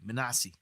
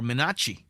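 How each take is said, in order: First: The middle consonant is an s sound. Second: The middle consonant is a ch sound.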